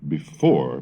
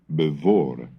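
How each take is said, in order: First: The second syllable begins with an F sound. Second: The second syllable begins with a V sound.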